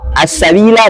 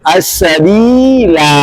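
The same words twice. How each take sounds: First: The final vowel is kept short. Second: The final vowel is drawn out long. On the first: The recitation continues into the next words. "Kalau wasal" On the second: The recitation stops at this word. "Kalau kita berhenti alifnya dibaca"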